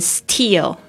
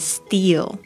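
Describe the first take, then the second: First: The t has a strong puff of air. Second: The t is soft, close to a d. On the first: The speaker calls it wrong. "你会发现不是念成steal" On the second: The speaker calls it right. "而是念成steal"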